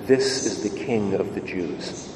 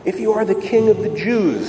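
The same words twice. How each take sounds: First: Solemn, hushed reading of the inscription; inscription read quietly. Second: Mock taunt pitched higher; a touch of a raised jeer, not full volume; soldiers calling out. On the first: Acted. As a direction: lower and softer, almost hushed. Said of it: "an inscription that read". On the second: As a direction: call it up like a jeering soldier. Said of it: "they called out".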